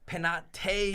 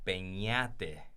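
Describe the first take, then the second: First: The middle consonant is a plain n sound. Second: The middle consonant is a palatal ny sound. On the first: The speaker calls it wrong. "I say it wrong on purpose" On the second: The speaker calls it right. "it's actually pronounced Peñate"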